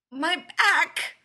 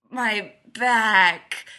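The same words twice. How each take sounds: First: High, squeaky pained cry; almost a squeak. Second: Loud, agonised groan on BACK; pained cry. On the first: Leonard repeating himself under the stranger, pained squeak. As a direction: squeak out BACK in pain, loud and high. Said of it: "comes out almost as a squeak". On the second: Leonard crushed under a stranger, loud pained cry. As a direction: cry out in pain, hitting BACK hard and long. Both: A narrator's reading.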